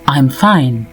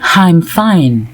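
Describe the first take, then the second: First: 'I'm' begins directly with the vowel. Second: An h sound is added before 'I'm'. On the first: The speaker calls it right. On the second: The speaker calls it wrong.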